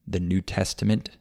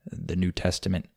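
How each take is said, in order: Both takes have the same delivery.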